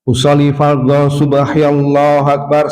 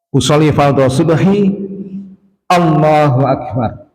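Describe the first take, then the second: First: Allahu runs into the word before it. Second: Allahu starts separately with a clear glottal stop. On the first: The speaker calls it wrong. "kan kalau diwasol begitu, nah itu nggak boleh" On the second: The speaker calls it right. "jadi Allahnya begitu"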